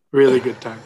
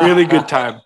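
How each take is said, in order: First: Dry ironic echo of his own joke; sarcastic repeat. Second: Deadpan, ironic rave; sarcastic praise. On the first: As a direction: mutter it again, more dry. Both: Real, not acted.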